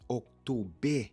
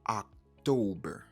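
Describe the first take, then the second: First: The word ends in an open e without r. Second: The word ends with an er sound with r. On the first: The speaker calls it wrong. "Yo pa di October" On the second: The speaker calls it right. "yo di October"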